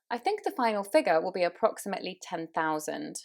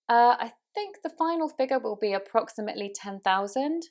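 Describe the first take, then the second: First: A silent pause comes before the sentence. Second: A hesitation sound comes before the sentence. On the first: The speaker seems to take a moment to think. The speaker calls it right. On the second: The speaker seems uncertain and unsure. The speaker calls it wrong.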